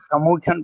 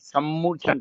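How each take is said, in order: First: The m sound is short and single. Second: The m sound is held long and doubled. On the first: The speaker calls it wrong. "दिलों में समूर्छन पड़ जाते" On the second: The speaker calls it right. "जबकि सम्मूर्छन पड़ना चाहिए"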